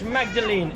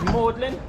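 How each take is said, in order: First: The name is said fully, the way it is spelled. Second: The name is said in a short, contracted form. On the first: The speaker calls it wrong. "It's actually spelt Magdalene" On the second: The speaker calls it right. "here in Cambridge, Magdalene is pronounced Magdalen"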